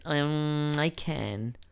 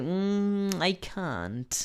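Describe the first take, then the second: First: Hesitant "Mm", then "can" like "ken"; "can" with short front a and no t, after a drawn-out hum; mispronounced can't. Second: Hesitant "Mm", then "can't" as British "kahnt"; "can't" with long open a after a drawn-out hum; clear negative can't. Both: Shown as a demonstration. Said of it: "por no pronunciarlo bien".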